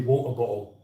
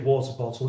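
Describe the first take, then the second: First: The T sounds are replaced by glottal stops. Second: The T sounds are pronounced clearly. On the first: The speaker calls it wrong. "they have the glottal stop instead of a T sound" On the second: The speaker calls it right. "they wouldn't say water bottle"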